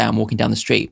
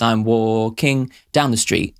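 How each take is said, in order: First: Said in the usual way. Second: Slow, with the stress landing oddly on "down"; odd stress rhythm. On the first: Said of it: "you say". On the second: Shown as a demonstration. Reviewer showing a misplaced lyric stress, slowly and oddly. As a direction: drag out "I'm walking down the street" with a skewed, songlike beat on "down". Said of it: "But if the rhythm of the line goes".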